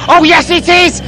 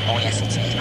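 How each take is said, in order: First: High, loud exclamation; thrilled yell; excited shout. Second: Low, breathy aside; muted. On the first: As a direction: burst out with it. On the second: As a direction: say it under your breath, held back. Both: Acted.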